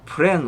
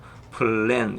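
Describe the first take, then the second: First: The L sound is said only once. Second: The L sound is doubled. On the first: The speaker calls it wrong. "그 플랜 우리가 이렇게 안 읽죠" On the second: The speaker calls it right. "뒤에 리를 하나 더 붙이죠. 그래서 넣어서"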